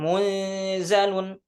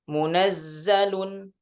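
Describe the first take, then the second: First: The z is single, after a nasalized n. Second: The z is doubled, after a short a. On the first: "tasydidnya dihilangkan" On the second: "Kalau di riwayah Hafs"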